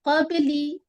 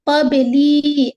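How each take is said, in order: First: The final vowel is kept short. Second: The final vowel is drawn out long. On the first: The speaker calls it right. "जल्दी करेंगे, लंबा बिल्कुल नहीं करेंगे" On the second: The speaker calls it wrong. "ऐसे नहीं करना है"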